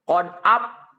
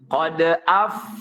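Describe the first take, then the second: First: Both lips close, so no breath escapes. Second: Upper teeth touch lower lip, letting breath escape. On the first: The speaker calls it wrong. "menempelkan bibir bawah dengan bibir atas, maka secara otomatis tidak akan keluar napas itu" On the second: The speaker calls it right. "yang benar itu adalah ujung gigi seri atas ditempelkan ke bibir bawah"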